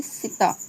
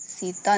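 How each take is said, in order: First: सीता as "sita", short "i" in the first syllable; unstressed, short vowel. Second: सीता with a long "ee" in the first syllable; stressed long vowel. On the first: Teacher showing the mistake, short unstressed first vowel. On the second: Teacher naming the correct form, long stressed first vowel. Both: Shown as a demonstration. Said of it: "सीता ना बोलकर".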